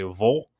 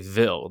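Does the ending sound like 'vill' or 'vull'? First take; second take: vull; vill. First: The ending has a reduced 'ull' vowel. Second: The ending has a clear 'ill' vowel. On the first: "when you're in the South, they say Vol" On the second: "they don't say Ville"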